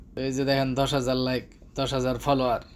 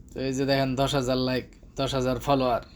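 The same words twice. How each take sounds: No difference in how they are said.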